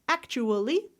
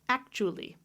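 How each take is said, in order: First: The word is said with four syllables. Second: The word is said with three syllables. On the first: "One, two, three, four" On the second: "One, two, three"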